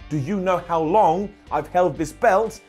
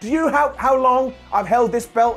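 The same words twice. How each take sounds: First: It is said as a normal, calm sentence. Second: It is said in an odd, crazed manner. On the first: The speaker calls it right. "He should say it like a real sentence" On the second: The speaker calls it wrong. "He shouldn't say it like that"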